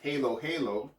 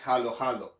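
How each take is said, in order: First: The last word ends smoothly without a sudden stop. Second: The last word ends with a sudden, abrupt stop. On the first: The speaker calls it wrong. "this word is not pronounced halo halo" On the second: The speaker calls it right. "I stop abruptly at the end of the second halo"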